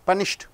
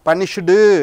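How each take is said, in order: First: The word ends sharply on a t sound. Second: The word ends with an added u vowel. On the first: The speaker calls it right. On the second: The speaker calls it wrong. "பனிஷ்டு என்று வரக்கூடாது"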